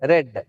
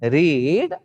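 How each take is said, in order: First: The vowel is a short 'e' sound. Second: The vowel is a long 'ee' sound. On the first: It is the past participle. "இதுவும் ரெட்" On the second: It is the present tense. "இதை வந்து ரீட்"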